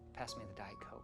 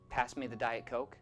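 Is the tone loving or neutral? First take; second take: loving; neutral. First: It is said tenderly, as if meaning I love you. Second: It is said in a plain, neutral tone.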